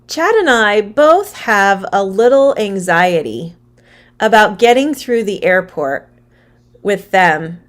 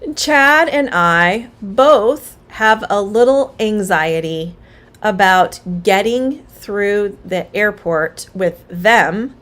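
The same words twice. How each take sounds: First: It is read with emotion and stressed words. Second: It is read flatly, without emotion. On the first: "read the sentence with some emotion and give stress to the words" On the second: "I just read that sentence without emotion"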